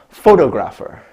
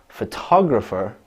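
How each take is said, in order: First: The stress is not on the second syllable. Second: The stress is on the second syllable. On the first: The speaker calls it wrong. "one of the common mistakes uh, that she makes, and most English learners make, is she says" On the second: The speaker calls it right. "we've heard it our whole lives as photographer"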